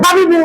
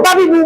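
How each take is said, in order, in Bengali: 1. স্বরধ্বনিগুলো হ্রস্ব, দ্রুত উচ্চারিত হয়। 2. স্বরধ্বনিগুলো হ্রস্ব, দ্রুত উচ্চারিত হয়।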